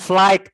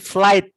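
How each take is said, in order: First: A g sound is pronounced in the word. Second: No g sound is pronounced in the word. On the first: The speaker calls it wrong. "Bukan flight" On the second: The speaker calls it right. "Huruf G-nya nggak dibaca"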